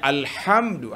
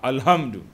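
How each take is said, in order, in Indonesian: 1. Bunyi h itu tegang dan dari tenggorokan. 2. Bunyi h itu hembusan nafas yang ringan dan biasa. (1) "Patutnya alhamdu" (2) "Dia pergi baca ha"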